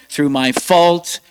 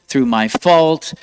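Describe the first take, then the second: No difference in how they are said.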